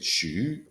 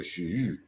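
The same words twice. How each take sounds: First: "Shu" as a learner's attempt, lifted in pitch; "Shu" said raised, with a slightly off ending; failed Chinese pronunciation. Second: "shu" drawn out with a pronounced tonal ending; "shu" held longer, its tone swooping at the end; corrected Chinese pronunciation. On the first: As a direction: try "Shu" with a simple upward tone. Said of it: "subtle difference in, in just the way it ends". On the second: Retold or imitated. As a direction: model "shu" as a correction, stretching the vowel. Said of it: "No, no, no, that's not right. You gotta go".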